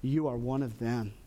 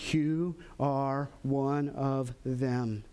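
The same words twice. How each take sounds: First: Said in the usual way. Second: Very slow, low, deliberate accusation. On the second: Acted. Bystanders encircle Peter to accuse him, slow accusation. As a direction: space out each word, pointedly. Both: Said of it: "begin to encircle Peter and to accuse him".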